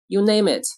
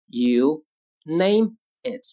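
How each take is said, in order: First: Said in the usual way. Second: Slow, with a gap between words; word-by-word model. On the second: Shown as a demonstration. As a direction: dictate it calmly and slowly. Teacher models phrase word by word.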